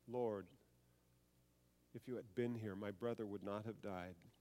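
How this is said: It is said sobbing, crying.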